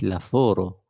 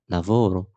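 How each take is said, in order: First: The middle consonant is an f sound. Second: The middle consonant is a v sound. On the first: The speaker calls it wrong. "مش لافورو، عشان في ناس بتقول اف" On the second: The speaker calls it right. "لا v لافو لافورو"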